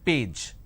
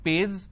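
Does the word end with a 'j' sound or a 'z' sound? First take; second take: j sound; z sound. First: The word ends with a 'j' sound. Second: The word ends with a 'z' sound. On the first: The speaker calls it right. "P, A, J, page" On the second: The speaker calls it wrong. "lot of people replace the J with a Z"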